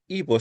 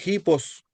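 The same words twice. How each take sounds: First: Said in the usual way. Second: "hipos" started with an audible h, like a Spanish j; rough breathing. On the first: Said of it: "ya no es hipo". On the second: Shown as a demonstration. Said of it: "cuando es espíritu rudo".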